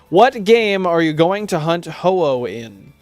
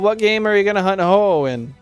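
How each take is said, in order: First: Each word is clearly and separately enunciated. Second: The words are run together like one word. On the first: The speaker calls it right. "There we go. Enunciation" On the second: The speaker calls it wrong. "That sounded like one word"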